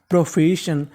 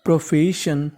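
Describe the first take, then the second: No difference in how they are said.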